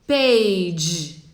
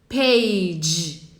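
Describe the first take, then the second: No difference in how they are said.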